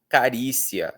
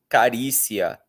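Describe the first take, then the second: The two takes are said the same way.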